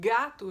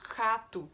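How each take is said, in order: First: The first consonant is voiced, with throat buzz. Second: The first consonant is voiceless, without throat buzz. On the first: The speaker calls it right. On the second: The speaker calls it wrong.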